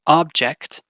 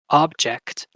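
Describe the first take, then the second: First: The stress is on the first syllable. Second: The stress is on the first syllable.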